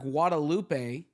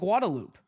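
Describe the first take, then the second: First: It is pronounced with Spanish vowels and sounds. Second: It is pronounced with English, Texan-style sounds. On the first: "where it's read everywhere, especially in Mexico" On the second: "why do they call it Guadalupe?"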